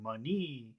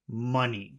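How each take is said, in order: First: The pitch rises from low to high. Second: The pitch does not rise at the end. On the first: The speaker calls it wrong. "you're going from low to high" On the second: The speaker calls it right. "it should just be money"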